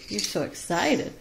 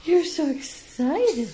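First: Said in the usual way. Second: Higher and slower, drawn out to the bird; high slow pet talk. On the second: Real, not acted. Owner cooing at excited Beauty, high slow pet talk. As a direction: coo it slowly up high.

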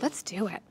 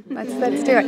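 First: Said in the usual way. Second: Louder, eager let's do it; eager yes. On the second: Retold or imitated. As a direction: seize the chance. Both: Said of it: "and I said".

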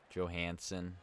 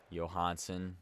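First: Johansson said with an English J, "Joe-HAN-sen"; flat "a" as in hand in Johansson, starting like "Joe"; J pronunciation. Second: Johansson said with a Y, "Yo-HAHN-sen"; Y pronunciation. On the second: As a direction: open "ah" in Johansson, starting like "yo". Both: Shown as a demonstration. Trying ways to say the name.

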